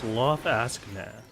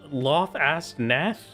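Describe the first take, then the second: First: The G in the last part is silent. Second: The G in the last part is pronounced. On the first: "the G is silent like GNOME, so it's" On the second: "How do I pronounce that name?"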